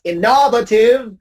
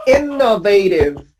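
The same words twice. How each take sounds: First: Innovative mis-stressed as in-NOV-a-tive; recalled error, in-NOV-ative; old mistaken stress. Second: Innovative as IN-no-vay-tive; exceptional stress. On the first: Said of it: "still read the word as". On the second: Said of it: "this word is different". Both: Shown as a demonstration.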